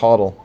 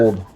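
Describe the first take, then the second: First: The word is said with two syllables, like 'hoddle'. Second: The word is said as one syllable, like 'hold'. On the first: This is how the community pronounces it. "Is that how they pronounce it?" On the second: This is how the speaker had been reading it. "I just kept pronouncing it hold"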